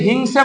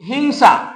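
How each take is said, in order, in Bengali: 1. শেষ স্বরধ্বনিটি একটি 'e' ধ্বনি। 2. শেষ স্বরধ্বনিটি একটি খোলা 'a' ধ্বনি।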